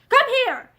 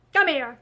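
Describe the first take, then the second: First: Higher, louder, insistent order; loud repeated command. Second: Said in the usual way. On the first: Acted. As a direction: bark the order again, harder. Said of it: "he repeated".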